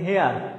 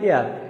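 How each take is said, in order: First: The word begins with a clear h sound. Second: The word begins with a vowel, no h sound. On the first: "আপনি বলতেছেন হেয়ার" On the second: "এটার উচ্চারণ তো হয় এয়ার"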